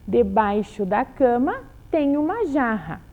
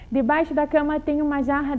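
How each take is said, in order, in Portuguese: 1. É lido num ritmo normal e constante. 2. É lido num ritmo mais rápido. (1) "uma leitura num ritmo normal" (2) "vamos ler um pouco mais rapidinho"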